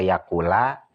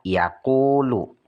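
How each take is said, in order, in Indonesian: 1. Kata ini berakhir dengan vokal a. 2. Kata ini berakhir dengan vokal u. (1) "Tidak benar" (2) "harus dirofakkan, dibaca yaqulu"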